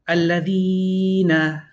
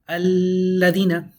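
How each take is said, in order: First: The L is single and the ee overlong. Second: The long ee vowel is cut short. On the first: "You took off the lam, you did too much of a e" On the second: "incorrect to say alladina. You took out the ya"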